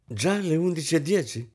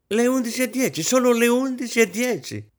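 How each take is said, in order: First: High exclamation of polite surprise; exclaiming. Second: Very high, desperate wail. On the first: Guest remarking on the late hour, exclaiming. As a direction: exclaim lightly at the time. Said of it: "esclamò la signorina Isabel". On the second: Hostess watching the clock, desperate. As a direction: wail it in despair. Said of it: "ripeté disperata". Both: A narrator's reading.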